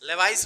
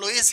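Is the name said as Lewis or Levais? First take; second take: Levais; Lewis. First: The name is pronounced as Levais. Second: The name is pronounced as Lewis. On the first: The speaker calls it wrong. "लेवाइस नहीं है ये।" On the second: The speaker calls it right. "इसको लुईस ही बोला जाता है।"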